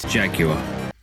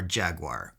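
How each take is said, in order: First: It is said in a British accent. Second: It is said in an American accent.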